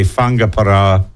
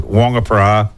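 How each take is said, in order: First: Whangaparoa said with an F start, "Funga-"; Māori-style pronunciation. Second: Whangaparoa said with a W start, "Wonga-"; older locals' pronunciation. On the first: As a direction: say Whangaparoa slowly, opening on F for Wh. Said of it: "rolling your tongue on the R". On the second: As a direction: say Whangaparoa the old way, opening on "Wong". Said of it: "most older locals pronounce it". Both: Shown as a demonstration.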